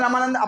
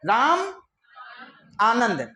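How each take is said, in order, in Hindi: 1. दोनों शब्द जल्दी से एक साथ जुड़कर बोले जाते हैं। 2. दोनों शब्द एक विराम से अलग हैं। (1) "दस बार जल्दी जल्दी बोलो" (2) "अब स्पेस दे दिया"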